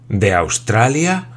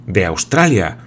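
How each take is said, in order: First: Slow question with a rising end; astonished echo. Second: Forceful interjection, falling at the end; vehement exclamation. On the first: Old sailor repeating his lord's words, astonished. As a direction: repeat it wide-eyed, stretching it into a question. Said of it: "repitió Tom abriendo desmesuradamente los ojos". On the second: Glenarvan breaking into the sailor's account, vehement. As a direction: cut in emphatically with certainty. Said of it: "exclamó Glenarvan con una vehemencia". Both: A narrator's reading.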